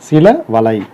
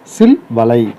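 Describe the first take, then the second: First: The first word ends with a final a vowel. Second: The first word ends in l, without a final vowel. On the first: "அகரம் கெடாமல்" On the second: "அகரம் கெட்டுடும்"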